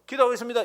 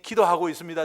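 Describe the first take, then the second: First: It is said in a careless, offhand way. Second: It is said in a warm, earnest way. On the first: The speaker does not really mean it. The speaker calls it wrong. "건성으로 기도하고 있습니다. 이렇게 하지 마세요" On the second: The speaker truly means it. The speaker calls it right. "정말 기도하고 있습니다"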